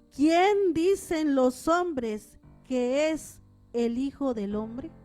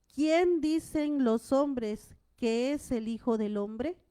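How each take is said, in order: Both takes have the same delivery.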